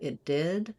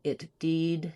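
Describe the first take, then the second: First: The vowel in did stays lower and lax. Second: The vowel in did drifts higher. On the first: The speaker calls it right. "instead of" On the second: The speaker calls it wrong. "you find yourself drifting higher"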